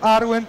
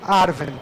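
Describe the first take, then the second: First: The middle consonant is a w sound. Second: The middle consonant is a v sound. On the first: "você vai ter William ou Vilha. Ambas as pronúncias são corretas" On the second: "Ambas as pronúncias são corretas"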